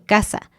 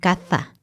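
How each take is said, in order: First: The middle consonant is a plain s sound. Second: The middle consonant is a th sound. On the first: "las pronunciamos igual, como casa y casa" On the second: "En España es un poco más claro porque dirían casa y caza"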